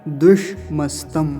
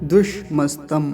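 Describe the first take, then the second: No difference in how they are said.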